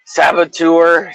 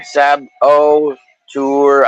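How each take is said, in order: First: Said in the usual way. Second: Sab-o-tour split into three very slow syllables; Sab-o-tour said slowly, with each piece stressed alike; spelled-out syllables. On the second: Shown as a demonstration. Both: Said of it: "I always spell it wrong".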